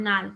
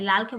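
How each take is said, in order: First: নাল with n in place of the first l; regional pronunciation. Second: Said in the usual way. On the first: Shown as a demonstration. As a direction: start নাল on an n, as in Rangpur dialect. (নাল, আঞ্চলিক উচ্চারণে ল-এর বদলে ন) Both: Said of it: "লালকে বলে নাল".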